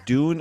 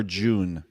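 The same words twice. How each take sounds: First: "Dune" said slowly as "doon"; plain hard d at the start of "Dune". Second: "June" said slowly as "joon". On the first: Showing the friend two different things, "Dune" with clean D. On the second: Showing the friend two different things, "June" with clear J. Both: Shown as a demonstration. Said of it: "Two different things".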